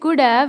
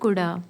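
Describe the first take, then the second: First: Both words are pronounced fully and separately. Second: 'Have' shrinks to a short 'uh' sound. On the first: "कुड हैव को बोलेंगे कुड हैव" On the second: "या फिर कुडा"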